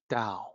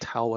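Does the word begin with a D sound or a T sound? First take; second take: D sound; T sound. First: The word begins with a D sound. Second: The word begins with a T sound. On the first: The speaker calls it right. "actually Dao with the D sound" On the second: The speaker calls it wrong. "Tao isn't Tao at all"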